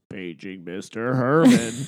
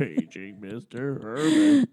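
First: Slow PA announcer voice; Pee-wee movie page over the intercom. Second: Slow PA announcer voice, repeated; slow intercom page from Pee-wee movie. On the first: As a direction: draw out the page like a loudspeaker. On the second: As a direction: page him again over the speaker. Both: Retold or imitated. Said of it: "all I can think in my head is".

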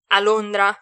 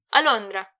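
First: Londra thrown back as a loud question; loud, doubting question; incredulous echo. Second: Said in the usual way. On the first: A narrator's reading. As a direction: repeat Londra in disbelief. Echoes the answer in disbelief.

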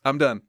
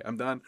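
First: Loud, clipped sign-off to the rant; fed-up outburst. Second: Said in the usual way. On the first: Real, not acted. Host cutting off his own Brady rant, loud. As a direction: slam the door on the topic.

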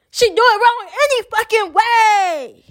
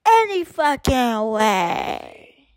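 First: High-pitched exasperated cry; exasperated outburst. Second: Very slow, stretched and sliding down in pitch; slow drawn-out repeat. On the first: Speaker fed up with girl's wrong cadence, high exasperated outburst. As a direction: burst out high, stretching the last word. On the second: Speaker fed up with cadence competition, slow drawn-out resignation. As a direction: wind down wearily, dragging each word. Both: Real, not acted.

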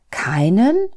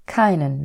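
First: KEINEN rising high and loud; disbelieving question. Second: KEINEN falling at the end, a statement; calm confirming repeat. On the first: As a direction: ask "Keinen?" in disbelief, swooping up at the end. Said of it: "konnte kaum glauben, was Gott da sagte". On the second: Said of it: "wiederholte Gott". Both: A narrator's reading.

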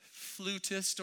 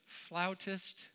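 First: "flutist" said FLOO-tist, with the oo of flute; "flutist" with a long oo, FLOO-tist; pronunciation. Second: "flautist" said FLOW-tist, with the ow of cow; pronunciation. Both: Shown as a demonstration. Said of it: "however you like to say that".

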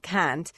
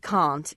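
First: CAN'T with a short, front "a", as in "cat"; accidental short-A can't. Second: CAN'T with a long, open "ah", like "kahnt"; Southern British can't. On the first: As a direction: slip into "kant" for "can't", not "kahnt". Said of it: "if I accidentally say it". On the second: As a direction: say "can't" the Southern UK way, vowel as in "father". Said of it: "change the sound on a word". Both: Shown as a demonstration.

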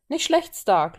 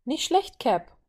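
First: Approving praise, louder and higher; praising. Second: Bright-pitched call of approval, louder. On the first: Steve acknowledges Tony's log split, praising. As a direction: hand out a lively compliment. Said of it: "lobte Steve". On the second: Violet cheers Steve's winning stroke, calling out. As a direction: cheer him on, voice jumping up. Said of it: "rief Violet". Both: A narrator's reading.

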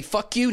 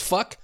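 First: "fuck you" with "you" clearly added, rising; full "you". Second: Said in the usual way. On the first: Shown as a demonstration. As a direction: set "you" out as its own high word. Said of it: "add the "you" at the end". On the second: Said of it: "not just "fuck".

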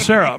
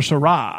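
First: "Sarah" said as SAIR-uh; correct Sarah. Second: "Sarah" said as suh-RAH; mispronounced Sarah. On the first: Shown as a demonstration. Correcting how her name is said, "Sarah" as SAIR-uh. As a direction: stress the first syllable of "Sarah", SAIR-uh. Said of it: "no, it's". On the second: Retold or imitated. Telling how everybody gets her name wrong, "Sarah" as suh-RAH. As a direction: stress the second syllable of "Sarah", suh-RAH. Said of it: "everybody calls her Sarah".

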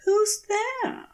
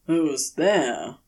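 First: A much higher, rising "Who's there?"; asking, uneasy. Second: "Who's there?" thrown back lower, with a flutter; mock his question back from the leaves; a lower, teasing echo of "Who's there?". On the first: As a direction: ask into the trees, a touch wary. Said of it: "Aziraphale asks". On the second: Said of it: "The words roll back towards him, a flutter". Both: A narrator's reading.

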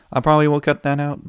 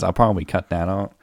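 First: "probably" sung out much higher and louder; mock high voice. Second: Said in the usual way. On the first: Repeating his promise to cut the burp, high and loud. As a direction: repeat the line in a high teasing voice.

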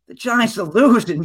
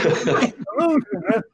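First: Said in the usual way. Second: Higher, laughing through it. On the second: Retold or imitated. Telling his wife why he's crying, laughing. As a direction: laugh at your own sorry excuse. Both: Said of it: "I'm like".

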